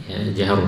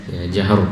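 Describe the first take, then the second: Both takes have the same delivery.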